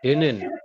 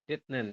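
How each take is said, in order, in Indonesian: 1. Suku kata pertama diakhiri bunyi n. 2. Suku kata pertama diakhiri bunyi t. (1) "Iya, seperti ini" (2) "Harusnya Anda baca sesuai tulisan itu kan detnen"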